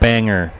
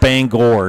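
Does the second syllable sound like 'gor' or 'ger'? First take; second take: ger; gor. First: The second syllable has a reduced 'er' vowel. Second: The second syllable has a full 'or' vowel. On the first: The speaker calls it wrong. "not Banger" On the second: The speaker calls it right. "it's pronounced Bangor"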